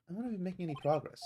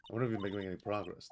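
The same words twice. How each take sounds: First: Higher, quicker in-character line. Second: Said in the usual way. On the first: Acted. Partner asks Nick about progress, higher and quicker.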